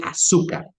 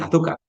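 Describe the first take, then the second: First: "azúcar" with an s sound for the z; Latin American S. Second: "azúcar" with a th sound for the z; Castilian Z. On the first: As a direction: say "azúcar" as "asúcar". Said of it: "no dicen azúcar". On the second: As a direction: say "azúcar" as in Spain, "athúcar". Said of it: "En el español de la península ibérica hay dos sonidos de S". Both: Shown as a demonstration.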